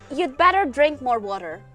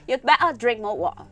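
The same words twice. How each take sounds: First: It is said in a non-Cockney accent. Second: It is said in a Cockney accent.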